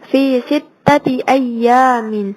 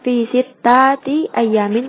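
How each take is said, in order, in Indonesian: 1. Vokal panjangnya ditahan panjang. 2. Vokal panjangnya dipotong pendek.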